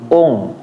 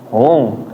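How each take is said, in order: First: The vowel starts with a clear glottal stop. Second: The vowel starts with a breathy h sound. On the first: The speaker calls it right. "tapi ung, ung ya harus jelas" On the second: The speaker calls it wrong. "jangan jangan hung, hung"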